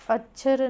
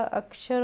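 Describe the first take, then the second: First: अक्षर said as achar, with ch for क्ष; wrong ch sound. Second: अक्षर with a clear k-sh cluster; correct ksh. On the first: (अक्षर को अचर बोलना, गलत उच्चारण) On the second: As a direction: sound out the क्ष in अक्षर fully. (साफ क्ष के साथ सही अक्षर) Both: Shown as a demonstration. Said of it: "अक्षर नहीं होगा".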